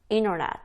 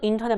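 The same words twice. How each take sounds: First: The t sound in the middle is dropped. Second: The t sound in the middle is clearly pronounced. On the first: "미국인들이 빨리 발음할 때" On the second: "물론 인터넷 맞아요"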